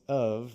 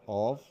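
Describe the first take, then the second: First: The word ends with a v sound. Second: The word ends with an f sound. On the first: The speaker calls it right. "it's of with a V sound" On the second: The speaker calls it wrong. "it's not of"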